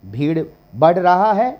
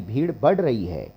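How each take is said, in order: First: Climbing, emphatic "रहा है", querying it; questioned wrong form. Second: Falling tune through "बढ़ रही है"; settled correct form. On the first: Teacher testing a wrong example, emphatic rising "रहा है". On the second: Teacher giving the correction, settled fall on "रही है". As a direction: bring "रही है" down as the firm answer. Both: Shown as a demonstration. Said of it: "नहीं".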